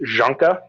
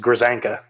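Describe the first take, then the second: First: It is said with Polish sounds. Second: It is said with American English sounds. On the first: The speaker calls it right. "the Polish pronunciation is" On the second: The speaker calls it wrong. "the bastardized American version"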